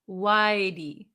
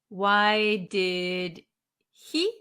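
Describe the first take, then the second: First: The words run together and the h is dropped. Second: Each word is said fully, with the h sound.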